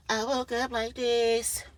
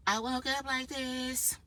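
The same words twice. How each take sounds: First: Sung, slow, high and fuller, belted a little; sung line, fuller. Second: Soft, slow, high sung line to herself. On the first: Singing it out again, fuller, as a brag. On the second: Singing softly to herself about waking up flawless. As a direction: sing it dreamily, slow and high. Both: Pretend.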